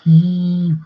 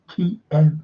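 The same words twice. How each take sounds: First: The name is said the Western way. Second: The name is said as key-ev. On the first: The speaker calls it wrong. "not Kiev ... That's the Western interpretation" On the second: The speaker calls it right. "that's how you pronounce it"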